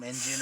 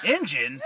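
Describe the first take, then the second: First: Said in the usual way. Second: "Indian" louder, as a question; incredulous echo. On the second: Retold or imitated. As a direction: throw "Indian" back in disbelief. Throws her word back, incredulous.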